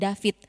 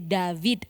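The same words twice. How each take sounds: First: The final consonant sounds like a voiceless T. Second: The final consonant is a voiced D sound. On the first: It sounds like an Indonesian pronunciation. The speaker calls it wrong. "tidak boleh jadi David" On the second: It keeps the original Hebrew pronunciation. The speaker calls it right. "di akhirnya juga harus tetap huruf D"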